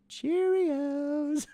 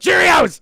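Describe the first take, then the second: First: It is said cheerfully, with a smile. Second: It is said grumpily, with a bad attitude.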